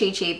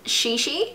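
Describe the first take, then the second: First: The name begins with a sharp 'ch' sound. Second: The name begins with a soft 'sh' sound. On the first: This is how it looks when read. "I have always pronounced it Chi Chi" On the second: This is the official pronunciation. "this is actually pronounced Shishi"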